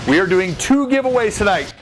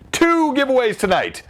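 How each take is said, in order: First: "two" raised high and falling; stress on TWO. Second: "Two" pitched very high and falling; infomercial stress on TWO. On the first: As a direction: lift the word "two" up high. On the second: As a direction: hit "Two" hard like an ad. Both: Real, not acted. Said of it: "I sound like an infomercial".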